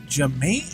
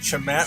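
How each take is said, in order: First: The name begins with a j sound. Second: The name begins with a ch sound. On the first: The speaker calls it right. "Jamate is how you say it" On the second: The speaker calls it wrong. "I've been saying it Chamat for years"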